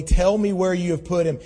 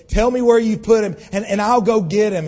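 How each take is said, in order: First: Said in the usual way. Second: Louder, higher and pleading hard; a grieving woman crying out, louder; desperate plea. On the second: Acted. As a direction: beg the gardener to give him back. Mary begs the supposed gardener.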